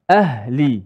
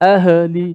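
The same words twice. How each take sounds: First: The h is closed quietly without any bounce. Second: The h is released with an echoing bounce. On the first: The speaker calls it right. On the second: The speaker calls it wrong.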